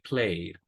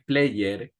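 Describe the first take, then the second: First: The ending is just a d sound. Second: The ending is said as an extra syllable. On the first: The speaker calls it right. "Como que fuera el mismo verbo play y le aumentamos un sonido de D" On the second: The speaker calls it wrong. "played no es player, como a veces eh, solemos decir"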